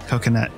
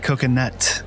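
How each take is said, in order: First: The final T sound is dropped. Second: The final T sound is clearly pronounced. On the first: "we don't pronounce the T" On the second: "But we don't say coconut"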